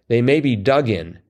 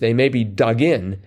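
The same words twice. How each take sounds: First: The stress falls on the word dug. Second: The stress falls on the word in. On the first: Holes are what may be dug. The speaker calls it wrong. "I read it as they may be dug in" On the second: Heels are what may be dug in. The speaker calls it right. "the way to read that is they may be dug in"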